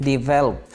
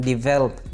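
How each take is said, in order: The two takes are said the same way.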